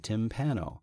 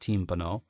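First: The name is said with an English pronunciation. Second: The name is said with an Italian pronunciation. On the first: "But in English, I say Timpano" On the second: "In Italian, it's Timpano"

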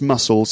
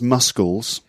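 First: The c is silent, giving a plain s sound. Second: The c is sounded as a k. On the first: The speaker calls it right. "that is pronounced muscles" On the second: The speaker calls it wrong. "It's not pronounced muscles"

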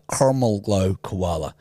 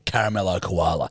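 First: It is said in an American accent. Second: It is said in an Australian accent. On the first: "they'd be like" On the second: "like you caramello koala"

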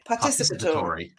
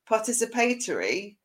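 First: It is said with an American-style pronunciation. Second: It is said with a British-style pronunciation. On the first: Someone else says it this way. "Howard pronounces this particular word participatory" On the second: The speaker says it this way. "which is how I would say it"

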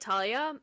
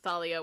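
First: The name begins with a plain t sound. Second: The name begins with a th sound.

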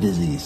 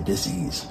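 First: The word is said smoothly as one unit. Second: The word is split into two separate parts. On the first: It names an illness. "I don't say disease" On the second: It names a lack of ease or comfort. "I say dis-ease"

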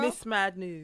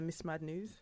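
First: It is said firmly, with conviction. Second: It is said hesitantly, without conviction.

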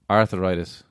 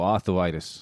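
First: The word is said in the speaker's own accent. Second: The word is said in a New York accent.

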